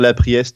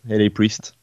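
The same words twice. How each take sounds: First: The first part is said as French 'la'. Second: The first part is spelled as English letters. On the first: The speaker calls it wrong. "J'ai toujours envie de dire La Priest, hein. Je trouve que c'est sympa en français" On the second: The speaker calls it right. "mais c'est en anglais, donc je pense que t'es plus dans le bon"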